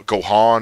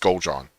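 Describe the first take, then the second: First: The name is said with no L sound. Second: The name is said with a clear L sound. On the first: The speaker calls it wrong. "things like they spell like a French" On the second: The speaker calls it right. "no, it's Goljan"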